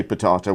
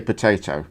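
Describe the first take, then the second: First: "potato" with a long AH middle, puh-TAH-toh; rejected potato. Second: "potato" with an AY middle vowel, puh-TAY-toh; usual potato. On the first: Cohost denying that way, potato as puh-TAH-toh. Corrects his own pronunciation joke. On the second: Cohost admitting his real way, potato as puh-TAY-toh. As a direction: say "potato" with middle rhyming with day. Gives the way really said. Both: Shown as a demonstration.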